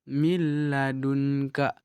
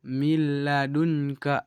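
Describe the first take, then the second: Both takes have the same delivery.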